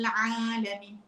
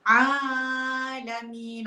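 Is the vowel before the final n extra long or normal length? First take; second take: normal; extra long. First: The vowel before the n is held two counts. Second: The vowel before the n is stretched extra long. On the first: The speaker calls it right. "Sepatutnya dua je" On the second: The speaker calls it wrong. "sedap kan? Tapi sebenarnya salah"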